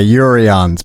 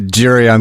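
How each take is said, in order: First: The name begins with a Y sound. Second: The name begins with a J sound. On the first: The speaker calls it right. "The J is actually pronounced like a Y" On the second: The speaker calls it wrong. "let people go with the Jurians because it's so complicated"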